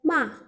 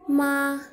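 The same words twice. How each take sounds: First: The pitch drops sharply and abruptly. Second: The pitch stays high and level. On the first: "intonasi menghentak atau intonasi keempat" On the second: "intonasi datar"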